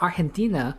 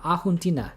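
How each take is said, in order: First: The word is said with an r sound. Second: The word is said without an r sound. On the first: The speaker calls it wrong. "I've always called it Argentina" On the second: The speaker calls it right. "It's pronounced as Ahuntina. There's no R?"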